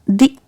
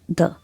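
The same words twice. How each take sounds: First: The word ends in a long ee vowel. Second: The word ends in a short uh vowel. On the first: The next word begins with a vowel sound. The speaker calls it right. "whenever the the will appear before a vowel sound, you'll pronounce it as the" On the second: The next word begins with a consonant sound. The speaker calls it wrong. "not the"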